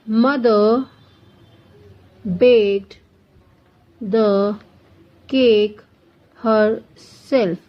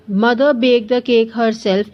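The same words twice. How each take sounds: First: Slow, each word set apart by long pauses; word-by-word dictation. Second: Said in the usual way. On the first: Shown as a demonstration. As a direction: dictate it one word at a time for students to write. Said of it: "teacher dictates example sentence". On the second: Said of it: "teacher repeats sentence normally".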